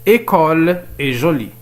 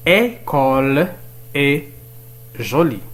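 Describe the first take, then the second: First: École est jolie read slowly as one sentence; measured reading. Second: École, est, jolie, each set apart by pauses; very slow, leave a gap after each word; word-by-word reading. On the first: Teacher reading an exercise to learners, measured reading. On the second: Teacher repeating the exercise for learners, word-by-word reading. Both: Shown as a demonstration.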